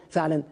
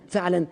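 Both takes have the same delivery.

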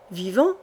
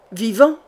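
First: Unsure questioning echo, held back; hint of a doubtful young man, rising question; doubtful repeat. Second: Lightly voiced villain growling in despair. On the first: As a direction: repeat the word in disbelief. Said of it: "répéta Hardy avec doute". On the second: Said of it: "gronda Saitano avec désespoir". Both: A narrator's reading.

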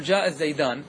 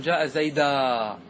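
First: "الزيدان" closed on a clear final n; full dual with nun. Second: "زيدا" ending on a long, slow open aa; nun dropped. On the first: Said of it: "تقول". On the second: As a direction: leave off the n and stretch the end of "زيدا". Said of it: "لو حذفت النون تقول". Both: Shown as a demonstration.

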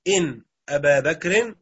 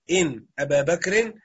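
First: إن drawn out slowly with a rise, then أبا بكر; stress on إن. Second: إن stretched slowly, أبا بكر rising; stress on إن. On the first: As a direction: lean on إن to show it governs أبا. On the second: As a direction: mark the case ending on أبا بكر. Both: Shown as a demonstration. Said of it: "أدخل عليها إن".

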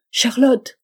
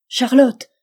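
First: Loud, high desperate call; calling again. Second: Loud, high call across the house; shouting a name. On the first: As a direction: shout her name once more, straining. (appeler Charlotte encore, désespéré) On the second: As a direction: call out desperately for Charlotte. (crier Charlotte à pleine voix) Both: A narrator's reading. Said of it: "cria-t-il".

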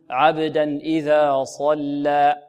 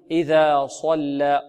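First: Slow عبدا إذا صلى with heavy ص and unrounded lips; correct recitation. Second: إذا صلى with ص rounded toward صو; wrong rounded sad. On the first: Teacher modelling the correct reading of عبدا إذا صلى, slow. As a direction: recite slowly, ص emphatic, lips flat. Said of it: "لا، نقول". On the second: Teacher showing the wrong rounded reading of صلى. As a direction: round the lips on ص as the mistake. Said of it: "ولا نقول". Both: Shown as a demonstration.

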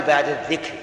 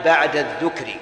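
First: الذكر said "adh-dhikr", with an i after the dhal; kasra on the dhal. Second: الذكر said "adh-dhukr", with a u after the dhal; damma on the dhal. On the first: Teacher shows students the form not to use here, kasra on the dhal. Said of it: "لأن الذكر هو قول اللسان". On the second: Teacher shows students the heart's remembrance form, damma on the dhal. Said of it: "بضم الذال". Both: Shown as a demonstration.

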